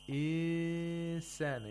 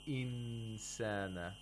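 First: The n is dropped with no nasal sound. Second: The n is pronounced fully and clearly. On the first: "they don't apply the ghunna" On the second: "You're doing ilhar of nun sakina. You're pronouncing the nun sakina"

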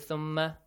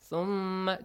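First: The doubled m sound is cut short. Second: The doubled m sound is held long. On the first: The speaker calls it wrong. "Do not say thumma. Fast, no" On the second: The speaker calls it right. "You have to prolong the sound"

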